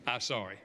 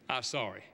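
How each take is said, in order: First: Insincere sorry. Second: Put-on a quieter, low mumbled sorry from a sulky kid; grudging child's apology. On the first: Retold or imitated. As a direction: say sorry without meaning it. Even if he's not sorry. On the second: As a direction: say it because you have to.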